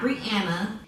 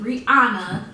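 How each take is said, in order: First: The middle vowel sounds like 'an'. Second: The middle vowel sounds like 'ah'. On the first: The speaker calls it wrong. "and not" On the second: The speaker calls it right. "put the H because it is meant to be"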